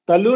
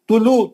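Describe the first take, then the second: First: The first vowel is an open 'a' sound. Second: The first vowel is a rounded 'u' sound. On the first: The speaker calls it wrong. "तलु नहीं" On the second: The speaker calls it right. "पेश है, पेश है। ... गोल होठों से"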